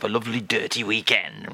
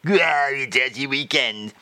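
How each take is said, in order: First: Said in the usual way. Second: Savouring French echo; mock-French accent. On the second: French guest echoes host's phrase, mock-French accent. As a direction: relish it in a put-on French accent.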